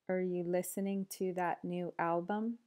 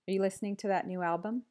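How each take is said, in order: First: The sentence is spoken at a slower pace. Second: The sentence is spoken at a fast pace. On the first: "then slower"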